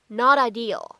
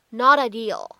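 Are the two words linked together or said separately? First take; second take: linked; linked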